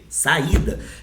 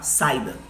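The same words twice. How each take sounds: First: The i is strong and stressed as its own syllable. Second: The i is weak, merged with the a before it. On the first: The speaker calls it right. "ele é forte" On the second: The speaker calls it wrong. "O normal desse I aqui é perder força"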